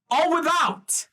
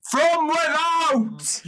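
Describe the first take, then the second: First: Said in the usual way. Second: Slow, loud and high declaration; the Emperor answers the demand with a booming, drawn-out proclamation; booming repeat. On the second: Acted. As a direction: bellow it out for the back row. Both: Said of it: "Could you say that louder?".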